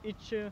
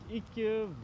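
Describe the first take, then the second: First: It is pronounced the Nynorsk way. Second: It is pronounced the Bokmål way. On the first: "на нюношке иче" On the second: "в букмоле она звучит ике"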